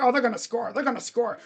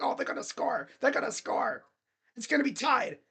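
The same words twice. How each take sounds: First: Said in the usual way. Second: Gloomy, defeatist whine; negative. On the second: Retold or imitated. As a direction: moan like you're sure it's lost. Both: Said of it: "I was being so damn negative".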